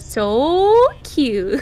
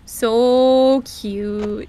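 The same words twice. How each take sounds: First: It is said in a special voice with breathiness. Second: It is said in an ordinary everyday voice. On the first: "you say it in a very particular voice" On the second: "I usually say like"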